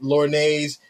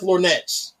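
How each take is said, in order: First: The word ends in a silent-t 'nay' sound. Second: The word ends in a clear 'nets' sound. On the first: The speaker calls it wrong. "every time we think something should be pronounced like that" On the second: The speaker calls it right. "oh no, it's pronounced Lornettes"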